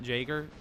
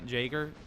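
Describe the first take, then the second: First: It is said with an American pronunciation. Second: The same.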